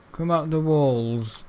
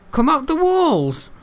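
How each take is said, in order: First: Said in the usual way. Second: High slow loud taunt; taunting call. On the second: Acted. Gamer taunting hidden ogre, high drawn-out call.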